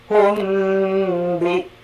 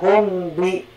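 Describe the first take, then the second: First: The nasal is held for two beats. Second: The nasal is held for one short beat. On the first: The speaker calls it right. "Dua kali ngayun" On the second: The speaker calls it wrong. "jangan hum bi sekali ngayun tidak"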